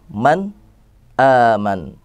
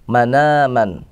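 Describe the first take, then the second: First: A brief pause separates the two words. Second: The words run together with no break. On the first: "ada juga yang dengan saktah" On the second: "itu naql"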